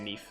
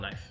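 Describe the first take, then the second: First: The vowel sounds like 'ee'. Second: The vowel sounds like 'eye'. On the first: "I wouldn't say you're wrong if you say Neef" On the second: "I call it knife"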